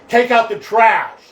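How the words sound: It is said in a forceful, intimidating tone.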